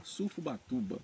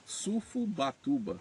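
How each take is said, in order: First: Said in the usual way. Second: "Sufubatuba" spelled out slowly, syllable by syllable; slow careful pronunciation. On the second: Shown as a demonstration. YouTuber reading a viewer's surname, slowly sounding out "Sufubatuba". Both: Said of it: "Eu vou tentar falar o nome dele".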